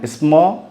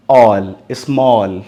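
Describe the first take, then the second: First: Said in the usual way. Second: ऑल and small said slowly, each sound clear; teacher slowing down ऑल, small; slow demo. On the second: Shown as a demonstration. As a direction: spell it out slowly for the pupils.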